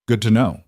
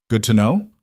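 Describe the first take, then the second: First: Said in the usual way. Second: "Good to know?" rising sharply at the end; incredulous echo question. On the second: A narrator's reading. Echoes his reply in disbelief.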